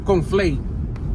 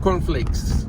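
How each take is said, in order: First: It is said with a heavy Spanish accent. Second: It is said with a plain American accent.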